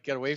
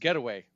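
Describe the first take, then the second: First: It is said like the verb phrase 'get away'. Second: It is said as a single compound noun. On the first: Escaping from someone. The speaker calls it wrong. "I was pronouncing it get away as in like get away from me" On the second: A vacation or holiday. The speaker calls it right. "but I think it's getaway"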